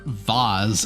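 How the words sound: The vowel is an 'ah' sound, like 'vahz'.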